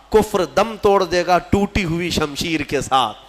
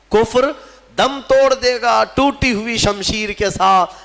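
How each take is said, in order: First: Said in the usual way. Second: Higher, louder verse declamation; declaimed verse. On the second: Acted. Preacher repeats Iqbal's verse to the congregation, declaimed high. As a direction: ring the couplet out over the crowd. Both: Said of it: "Iqbal نے کہا تھا".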